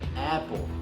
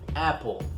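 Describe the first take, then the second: First: The first vowel is an English 'a', as in cat. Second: The same.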